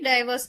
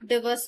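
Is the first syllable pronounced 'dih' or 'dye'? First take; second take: dye; dih. First: The first syllable has a long 'eye' vowel. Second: The first syllable has a short 'ih' vowel. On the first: "டைவர்ஸ்னும் படிக்கலாம்" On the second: "டிவர்ஸ்னும் படிக்கலாம்"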